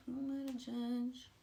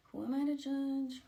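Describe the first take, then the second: First: Said in the usual way. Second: Sarcastic. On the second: Real, not acted.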